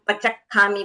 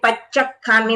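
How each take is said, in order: First: The ch sound is short, single. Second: The ch sound is held long, doubled. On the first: The speaker calls it wrong. "ज्यादातर लोग पचक खामी बोल देते हैं, च बोलते हैं" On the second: The speaker calls it right. "Double च है"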